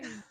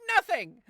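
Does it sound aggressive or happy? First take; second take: aggressive; happy. First: It is said in an aggressive way. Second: It is said in a super happy way.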